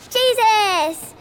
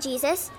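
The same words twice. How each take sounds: First: The word is said with excited exclamation. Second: The word is said in a flat, plain way. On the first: It is an enthusiastic exclamation. The speaker calls it right. "They say Jesus! Do you see the exclamation point?" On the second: It is a plain statement of the name. The speaker calls it wrong. "they don't say Jesus"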